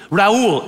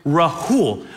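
First: Raul with no H, one glide; countering with Raul. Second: Rahul slow, with a clear breathed H; insisting on H. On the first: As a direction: fire back "Raul" without the H. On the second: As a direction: insist on "Rahul", ra-HOOL, drawn out. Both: Retold or imitated. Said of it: "I would go back and forth".

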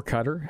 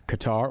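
First: Qatar with the stress on the first syllable; alternative pronunciation. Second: Qatar with the stress on the second syllable; alternative pronunciation. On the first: Host offering the other option, Qatar as CUT-er. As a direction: say Qatar like "cutter". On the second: Host offering listeners a choice, Qatar as kuh-TAR. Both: Shown as a demonstration. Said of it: "however you wanna say it".

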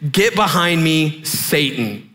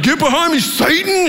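First: Slow, measured command, dropping at the end; Jesus. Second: High, hammed-up exclamation; mock argument retort. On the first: Retold or imitated. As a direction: deliver a grave, restrained rebuke. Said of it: "Jesus turned to Peter and said". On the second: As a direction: play a husband rashly snapping back at his wife. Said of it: "as a reply in an argument".

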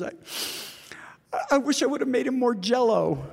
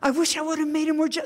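First: High, breaking, tearful whisper of a grieving widow; through tears. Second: High, fast, louder widow voice; repeating, higher. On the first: Grieving widow confesses her regret to Paul, tearful whisper. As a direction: choke the words out through tears. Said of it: "she's just stumbling through tears". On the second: Widow repeats her regret to a puzzled Paul, high and rushed. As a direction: blurt it out again, higher and faster. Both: Retold or imitated.

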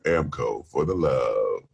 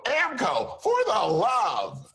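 First: Very low, slow soul-crooner ad read; a soul singer impression. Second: Even bigger, high shouted white-announcer read. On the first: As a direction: drop deep and draw the slogan out smoothly. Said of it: "I said a soul singer". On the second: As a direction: oversell the slogan in a high, stretched ad voice. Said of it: "So take two". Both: Acted.

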